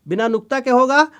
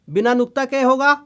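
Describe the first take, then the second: Both takes have the same delivery.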